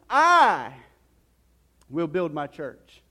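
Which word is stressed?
I. The stress falls on the word "I". "let's put some emphasis on that phrase here"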